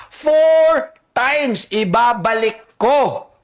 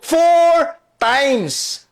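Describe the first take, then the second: First: "Four times" drawn out slow and heavy; slow emphatic. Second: Said in the usual way. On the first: Shown as a demonstration. Host driving home the fourfold repayment, slowly. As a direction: stretch out "Four times ibabalik ko" word by word.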